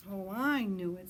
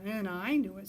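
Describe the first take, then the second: First: Louder, stress on "I"; proud little owl, leaning on "I"; eager owlet. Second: Louder, stress on "knew", falling; eager owlet. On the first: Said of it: "said Sarah". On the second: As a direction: insist on it, hitting "knew". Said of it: "said Percy". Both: A narrator's reading.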